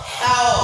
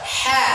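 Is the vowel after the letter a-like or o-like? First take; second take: o-like; a-like. First: The letter is read thick, with an o-like vowel. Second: The letter is read thin, with an a-like vowel. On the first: The speaker calls it wrong. "Bukan dibaca hao" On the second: The speaker calls it right. "baca ha"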